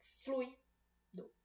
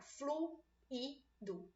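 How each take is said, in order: First: Fluido in two separate beats, flui, do; fluido split as diphthong. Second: Fluido broken slowly into flu, i, do; fluido split as hiatus. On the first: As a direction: keep ui together in fluido, pause, then do. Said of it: "Tem que estar na mesma sílaba". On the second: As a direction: pause between each syllable of fluido, U and I apart. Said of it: "Vogais em sílabas diferentes". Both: Shown as a demonstration.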